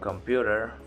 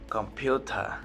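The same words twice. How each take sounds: First: It is said in an American accent. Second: It is said in a British accent. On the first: "American people say" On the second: "British people say"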